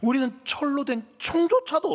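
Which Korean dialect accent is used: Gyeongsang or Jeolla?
Gyeongsang. It is spoken in a Gyeongsang dialect accent. "이 경상도 버전으로 이렇게 쓸 것 같아요"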